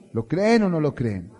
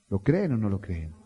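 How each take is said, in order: First: Louder repeat. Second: Said in the usual way. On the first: Real, not acted. Pastor asks the congregation again, louder. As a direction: push the question louder the second time.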